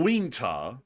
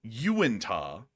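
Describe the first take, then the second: First: Wingta said as two syllables, "WEEN-tah"; spelling misreading. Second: Uintah said "you-IN-tah"; sounded-out pronunciation. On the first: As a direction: run the opening of Wingta together as "ween". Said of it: "That's Wingta or something like that". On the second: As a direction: begin Uintah with a clear "you". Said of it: "which is U". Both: Shown as a demonstration.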